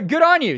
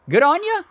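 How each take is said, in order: First: The last word is a full 'you'. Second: The last word is reduced to 'ya'.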